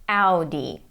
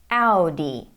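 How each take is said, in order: Both takes have the same delivery.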